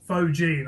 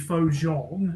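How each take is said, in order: First: The name is said with English pronunciation. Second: The name is said with French pronunciation. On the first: "I think it is. Yeah, um, like that" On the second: "the French pronunciation would be faux Jean"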